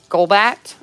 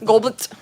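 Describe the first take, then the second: First: The last syllable is clear with a full vowel. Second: The last syllable is quick with a reduced vowel. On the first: "Instead of Golbat" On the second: "I'm just not accentuating the at"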